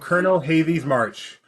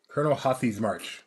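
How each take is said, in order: First: The name has a 'v' sound in the middle. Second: The name has a 'th' sound in the middle. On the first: The speaker calls it wrong. "It's not Havy. ... I said it wrong" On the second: The speaker calls it right. "Colonel Hathi"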